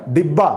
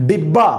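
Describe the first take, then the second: No difference in how they are said.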